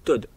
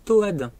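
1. La voyelle se prononce en un seul son. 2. Le A se prononce comme une voyelle séparée. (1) "certains d'entre vous, vous dites Toad" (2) "Je prononce le A"

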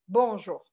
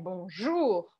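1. A sílaba forte é a primeira. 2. A sílaba forte é a última. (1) "não é bonjour" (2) "é a última"

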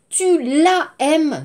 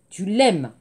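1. La voyelle de la est gardée devant aimes. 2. La voyelle de la est supprimée devant aimes. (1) "Non. ... impossible" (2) "L apostrophe"

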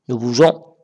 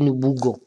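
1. La consonne du milieu est un son zh doux. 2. La consonne du milieu est un son g dur.

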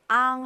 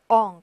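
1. 비음 모음은 열린 'ah' 소리입니다. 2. 비음 모음은 더 어두운 'uh' 소리입니다. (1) "이 앙을 앙 하시면 안 되고요" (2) "엉 그렇게 좀 발음을 해주시면 됩니다"

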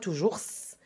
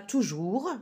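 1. Le son du s final se prononce. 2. Le son du s final est muet.

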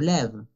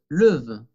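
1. La vocal es un sonido e abierta. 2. La vocal es un sonido schwa débil. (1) "por eso tengo que poner acento grave para pronunciar e" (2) "no puedo decir lève"

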